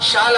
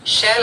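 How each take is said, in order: First: The vowel sounds like the one in shawl. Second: The vowel sounds like the one in shell. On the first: "यहां मैं शाल भी बोल रहा हूं" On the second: "यहां मैं शैल भी बोल रहा हूं"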